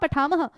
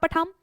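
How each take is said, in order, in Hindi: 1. शब्द के अंत में साफ़ सुनाई देने वाली breathy h है। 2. शब्द के अंत में कोई h ध्वनि नहीं है। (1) "ऐसे बोलते हैं ना" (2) "ये गलत हो जाता है"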